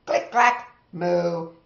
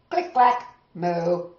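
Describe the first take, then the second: No difference in how they are said.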